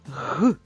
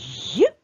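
First: The consonant is hard, without palatalization. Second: The consonant is soft, with palatalization. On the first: "Твердий приголосний" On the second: "М'який приголосний звук"

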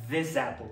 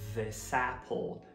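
First: The end of 'this' is a buzzing Z sound. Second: The end of 'this' is a hissing S sound. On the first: The speaker calls it wrong. "com som de Z" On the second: The speaker calls it right. "o final dessa palavra é S"

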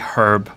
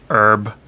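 First: The word begins with an audible h sound. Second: The word begins without any h sound. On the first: "I pronounce the the the H" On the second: "I don't say herb because I'm British"

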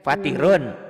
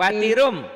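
First: The word ends with an n sound. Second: The word ends with an m sound.

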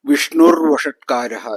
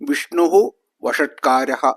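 First: Vishnu ends in an r sound. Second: Vishnu ends in an h sound.

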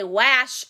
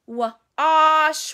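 First: The vowel after W is a short a. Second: The vowel after W is an ah sound. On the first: The speaker calls it wrong. "We don't say wash" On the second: The speaker calls it right. "it says the ah sound, like ah, like as in wash"

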